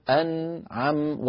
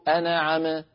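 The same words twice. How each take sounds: First: أنعم slow with nun held still; firm sukun. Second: أنعم said enaʕeme with vowels slipped in; wrong bounce. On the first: Teacher modelling correct أنعم, slow. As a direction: keep أنعم steady. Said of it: "لا بد أن نقول". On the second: Teacher showing the wrong أنعم with a bounce. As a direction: shake the nun in أنعم. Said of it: "ولا نقول". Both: Shown as a demonstration.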